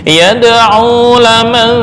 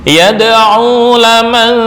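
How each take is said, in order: No difference in how they are said.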